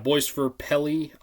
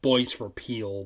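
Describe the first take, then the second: First: The last word has two syllables, like 'pelly'. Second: The last word has one syllable, like 'peel'. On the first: The speaker calls it right. "I think is how you say it" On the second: The speaker calls it wrong. "I called it Boys for Peel before"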